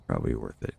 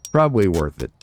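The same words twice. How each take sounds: First: Much lower and softer, muttered to himself; a quiet low echo of "Probably worth it". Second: Said in the usual way. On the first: Real, not acted. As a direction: drop low and mumble it again. Repeats phrase much lower.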